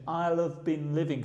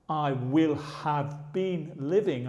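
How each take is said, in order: First: The words are contracted and reduced together. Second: Each word is said fully and separately. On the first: The speaker calls it right. "pay attention to the pronunciation" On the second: The speaker calls it wrong. "So I don't actually say"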